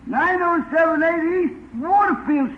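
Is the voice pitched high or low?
high. The voice is raised to a higher pitch. "Raise your voice, [name]"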